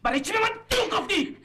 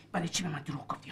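First: Much higher, loud yelled repeat; furious shout. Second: Quiet menace. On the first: The man shouts the same question at the woman, furious. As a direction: explode on the repeat. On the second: The man quietly presses the woman about her lie, before he shouts. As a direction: hold it down before the explosion. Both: Acted.

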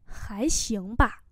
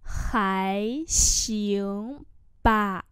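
First: Said in the usual way. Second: Stretched syllables, small gaps between; word-by-word demonstration; slow model pronunciation. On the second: Shown as a demonstration. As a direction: say it slowly for learners. Teacher repeats phrase slowly.

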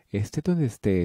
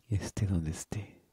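First: Said in the usual way. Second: 1 soft whisper. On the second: Acted. Letter read softly.

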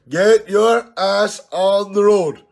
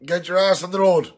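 First: "Get your ass on the road" said slow, higher and louder, leaning on "Get"; drawn-out challenge. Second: Said in the usual way. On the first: Real, not acted. Daring pal Tom on his video challenge, slow and loud. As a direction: spell it out slowly like a dare. Repeats the challenge line slowly.

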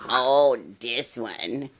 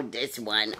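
First: Drawn-out oh. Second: Said in the usual way. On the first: Real, not acted. Spotting puppy behind bed.

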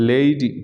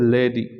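First: লেডি as "LAY-dee"; correct pronunciation. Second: লেডি as "LEH-di", short e; common mispronunciation. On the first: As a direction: glide the first vowel of লেডি from e to i. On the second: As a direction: say লেডি with a clipped first vowel. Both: Shown as a demonstration. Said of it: "এটার সঠিক উচ্চারণ হবে".

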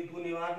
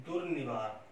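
First: दुर्निवार said as du-ni-vaar; wrong form, r dropped. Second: दुर्निवार said as dur-ni-vaar; careful दुर्निवार with both r sounds; corrected form, r sounded. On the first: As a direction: leave out the first "r" of दुर्निवार. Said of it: "दुर्निवार नहीं होता है". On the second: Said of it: "ये होता है". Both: Shown as a demonstration.

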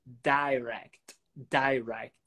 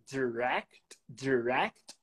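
First: "direct" as DIE-rect, slow and low; long i variant. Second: "direct" as di-RECT, short unstressed first syllable; short first vowel. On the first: Teacher gives the other direct, long i. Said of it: "ou direct". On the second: Teacher lists direct variants, short vowel. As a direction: say "direct" slowly as "duh-RECT". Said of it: "no inglês, pode ser". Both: Shown as a demonstration.

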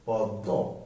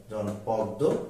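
First: পদ্ম said lower as পদ্দো; doubled consonant demo. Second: Said in the usual way. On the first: Shown as a demonstration. Teacher sounding পদ্ম with double দ. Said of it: "দুইবার হবে". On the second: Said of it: "যুক্ত বর্ণটি দুইবার হবে".

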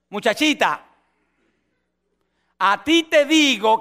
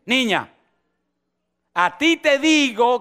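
First: Put-on slow, rising command to the girl; commanding Jesus. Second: Put-on slow, firm call to the girl; commanding Jesus. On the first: Jesus commands the dead girl to rise, slow and firm. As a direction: call her with authority. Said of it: "está allí y dice". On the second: Jesus speaks to the dead girl, slow and firm. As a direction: say it with authority. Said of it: "Y le dice".

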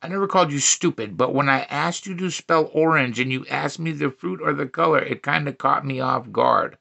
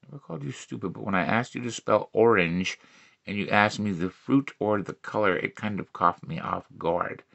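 First: Said in the usual way. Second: Much quieter and lower, measured; low deadpan re-read. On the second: Acted. Comic repeats the joke about spelling orange, low and quiet. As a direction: drop it to a low, soft repeat.

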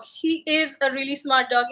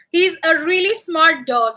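First: Said in the usual way. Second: Squeaky voice for the dog; a touch of pet talk. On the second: Real, not acted. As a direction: owner praising the dog in a light squeaky voice. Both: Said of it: "that was my pet voice".

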